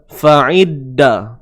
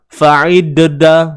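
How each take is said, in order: First: The doubled d is plain without any echo. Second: The doubled d has an added bouncing echo. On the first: The speaker calls it right. "jadi bunyinya biasa je" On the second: The speaker calls it wrong. "tak perlu kita menambah-nambahkan bunyi uh, bunyi lantunan tu... Tak sesuai kan?"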